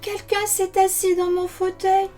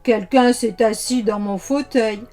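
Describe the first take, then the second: First: It is said in a soft, gentle voice. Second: It is said in a deep, gruff voice.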